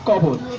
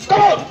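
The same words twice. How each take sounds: First: It is recited in a plain, simple way. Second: It is recited in a grand, oratorical way. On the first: "সহজ সরল, অতি সাধারণ" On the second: "সেরকম রাজনীতিক style"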